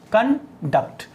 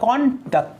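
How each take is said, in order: First: The stress is on the second syllable. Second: The stress is on the first syllable. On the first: The word is used as a verb. "यहां पर second syllable पर stress है" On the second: The word is used as a noun. "यहां पर first syllable पर stress है"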